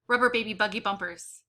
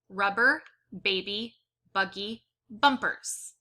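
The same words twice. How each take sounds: First: The phrase is said at a very fast pace. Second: The phrase is said at a slow, careful pace. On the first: "I wonder if I can go even faster" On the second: "it says"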